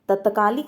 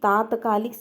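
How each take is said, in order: First: The first vowel is short. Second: The first vowel is long. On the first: The speaker calls it wrong. "अशुद्ध है" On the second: The speaker calls it right. "शुद्ध है"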